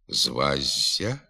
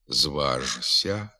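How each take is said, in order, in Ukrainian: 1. Звук «ж» переходить у звук «з». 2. Звук «ж» вимовляється так, як написано. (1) "а вимовляти слід" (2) "На письмі"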